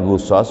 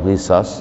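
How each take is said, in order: First: The first vowel is u. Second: The first vowel is i. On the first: The speaker calls it right. "dibacanya ghusas" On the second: The speaker calls it wrong. "atau ghisas"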